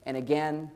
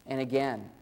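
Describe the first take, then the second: No difference in how they are said.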